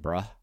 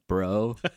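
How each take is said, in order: First: The final word ends in an 'uh' vowel. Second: The final word ends in an 'oh' vowel.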